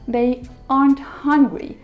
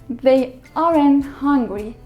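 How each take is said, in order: First: "Aren't" is said with one syllable. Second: "Aren't" is said with two syllables. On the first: The speaker calls it right. "There's only one syllable in it" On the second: The speaker calls it wrong. "It's wrong"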